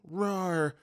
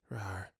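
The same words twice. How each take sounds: First: Sleepy little mock tiger roar; soft gruff roar. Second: Tiny, soft, slow mock tiger roar; very quiet roar. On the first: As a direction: roar gruffly but keep it small. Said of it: "more like softly yet gruffly going". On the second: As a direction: roar as quietly as you can. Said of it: "really quietly goes".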